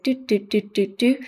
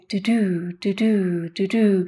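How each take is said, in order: First: All syllables have similar length and loudness. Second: Some syllables are long and loud, others short and soft. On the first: This is how a syllable-timed language sounds. "more of a monotone beat, so all the syllables have quite a similar duration" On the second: This is how a stress-timed language sounds. "some that are really stretched and some that are really soft, ... really up and down"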